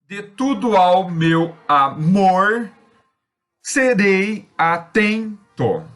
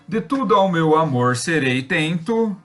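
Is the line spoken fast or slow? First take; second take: slow; fast. First: The line is spoken slowly, syllable by syllable. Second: The line is spoken quickly and rhythmically. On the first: The stressed syllables can be picked out. "quando a gente faz isso mais lento, a gente percebe as tônicas" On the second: The line takes on a rhythm. "Quando a gente fala rápido, isso gera um ritmo"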